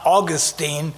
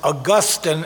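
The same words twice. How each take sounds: First: The name is said the Floridian way. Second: The name is not said the Floridian way. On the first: This is how people in Florida say it. The speaker calls it wrong. "not Augustine, because the Floridians have it wrong" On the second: This is the name of the church figure. The speaker calls it right. "make sure I pronounce his name as Augustine"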